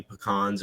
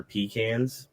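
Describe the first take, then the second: First: "pecans" said puh-KAHNS; rejected pronunciation. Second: "pecans" said PEE-kanz; other rejected pronunciation. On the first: Host shows what the family avoids, "pecans" as puh-KAHNS. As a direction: stress the second syllable of "pecans", puh-KAHNS. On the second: Host shows another avoided way, "pecans" as PEE-kanz. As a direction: say "pecans" as PEE, then cans. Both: Shown as a demonstration. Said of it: "We don't see pecans or pecans".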